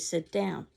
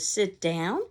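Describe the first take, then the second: First: It is said as a plain statement. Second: It is said as a rising question.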